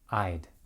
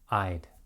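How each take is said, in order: First: Would is reduced to a short d sound. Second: The same.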